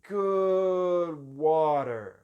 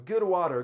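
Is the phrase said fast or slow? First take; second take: slow; fast. First: The phrase is said very slowly. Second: The phrase is said quickly. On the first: The speaker calls it right. "câmera lenta" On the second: The speaker calls it wrong. "Se eu ficar falando rápido"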